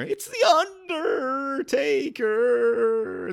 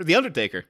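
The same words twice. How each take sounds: First: High, wailing, very slow announcement; high-pitched manager impression, drawn out; old wrestling manager. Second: Said in the usual way. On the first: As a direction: stretch the name into an eerie high wail. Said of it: "in the voice of his old manager". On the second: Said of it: "That's your Paul Bearer?".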